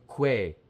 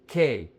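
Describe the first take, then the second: First: "que" said as kweh; mispronounced with W. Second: QUE said as "K", like keh; silent U. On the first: Teacher shows learners the mistake, "que" as kweh. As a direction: put a W glide in "que". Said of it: "not que". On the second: Teacher explains this syllable, "K" as plain keh. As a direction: say "K" with no W glide. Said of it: "the Q U E, is K". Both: Shown as a demonstration.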